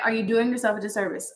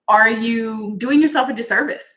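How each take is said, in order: First: Said in the usual way. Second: Pressing question, doing lifted and louder; "doing" pushed up and loud, pointed; stress on doing. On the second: Shown as a demonstration. To her live viewers, a louder pointed question.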